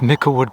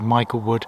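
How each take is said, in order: First: The first part sounds like 'mickle'. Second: The first part sounds like 'Michael'. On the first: "It's actually pronounced Micklewood" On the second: "some people pronounce it Michaelwood"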